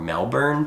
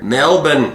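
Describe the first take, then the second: First: It is said the way Americans say it. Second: It is said the way Australians say it. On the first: This is how the speakers usually say it. "but we say Melbourne or Melbourne" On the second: This is how the locals say it. "Melbourne is how they like to say it"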